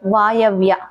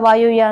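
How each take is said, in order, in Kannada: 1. 'vaay' ನಂತರದ ಸ್ವರ a ಆಗಿದೆ. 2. 'vaay' ನಂತರದ ಸ್ವರ u ಆಗಿದೆ. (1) "ಅದು ಸರಿಯಾದ ಪದ ವಾಯವ್ಯ" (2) "ವಾಯುವ್ಯ ಅಲ್ಲ"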